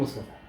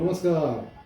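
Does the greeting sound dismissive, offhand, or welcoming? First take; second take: dismissive; welcoming. First: The greeting sounds curt and dismissive. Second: The greeting sounds warm and welcoming. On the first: The visitor is being asked to leave. "अब आपकी जाने का समय हो गया" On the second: The visitor is gladly welcomed. "अरे आइए आइए, आपसे मिलकर बड़ा अच्छा लगा"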